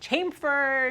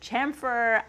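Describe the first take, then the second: First: It is said with a Long Island accent. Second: It is said with a standard accent.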